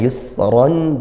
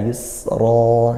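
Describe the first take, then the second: First: The word ends with a nasal -an ending. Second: The word ends with a long open vowel. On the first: This is the form in running text. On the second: This is the form when stopping at the word.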